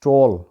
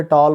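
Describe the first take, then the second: First: टॉल with a rounded "aw", tawl; corrected pronunciation. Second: टॉल with a long open "aa", taal; local pronunciation. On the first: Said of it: "गलत है". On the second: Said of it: "इसको वहाँ पे टॉल बोला जाता है". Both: Shown as a demonstration.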